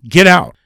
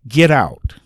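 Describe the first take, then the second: First: It is said in a higher pitch. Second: It is said very faintly and quietly.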